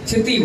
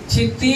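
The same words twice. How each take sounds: First: The i vowel is kept short. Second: The i vowel is drawn out long. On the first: The speaker calls it right. "चिति बोलिए" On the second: The speaker calls it wrong. "चिति नहीं बोलना है, बड़ी की आ जाएगी ना तो अशुद्ध हो जाएगा"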